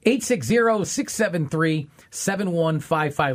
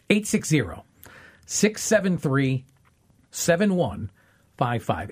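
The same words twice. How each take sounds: First: The number is said at normal speed. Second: The number is said more slowly.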